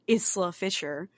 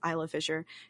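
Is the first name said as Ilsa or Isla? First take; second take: Ilsa; Isla. First: The first name is said as Ilsa. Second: The first name is said as Isla. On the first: The speaker calls it wrong. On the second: The speaker calls it right.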